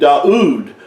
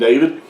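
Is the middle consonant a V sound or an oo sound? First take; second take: oo sound; V sound. First: The name is said with an oo sound. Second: The name is said with a V sound. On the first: This is how the name was originally said. The speaker calls it right. "It was the way his name was pronounced" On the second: This is the later, changed form of the name. The speaker calls it wrong. "The V sound is not was not originally in David's name"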